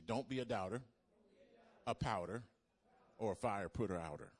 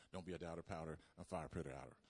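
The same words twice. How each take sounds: First: Chanted slogan. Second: Quick tongue-twister run; said real fast. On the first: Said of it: "Everybody, everybody say". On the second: Preacher tells the congregation to say it fast, rapid. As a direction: rattle it off fast and low. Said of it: "Now say it all real fast". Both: Shown as a demonstration.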